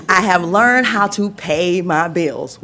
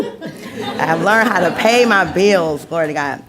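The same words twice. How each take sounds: First: Said in the usual way. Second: Said through happy laughter; beaming, laughing repeat; laughing with joy. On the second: Real, not acted. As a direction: laugh it out, proud of it.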